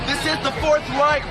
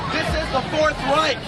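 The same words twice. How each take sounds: The two takes are said the same way.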